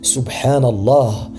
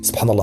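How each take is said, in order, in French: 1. Elle est dite lentement et avec soin. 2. Elle est dite très vite et à la hâte. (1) "il est important de prendre son temps lors de la prononciation" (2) "la formule dite rapidement"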